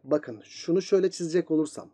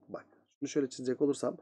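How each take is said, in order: First: Said in the usual way. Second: Softer and fast, under the breath; repeating himself quietly at the board; quick quiet repeat. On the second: Real, not acted. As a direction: mutter it again to yourself while drawing. Teacher repeats line while drawing.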